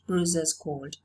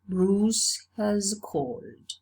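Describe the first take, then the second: First: 'Has' is reduced to a short extra syllable. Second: 'Has' is said as a full separate word. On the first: "it's realized as the extra syllable as" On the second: "you say Bruce has called"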